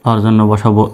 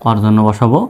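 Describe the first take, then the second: Both takes have the same delivery.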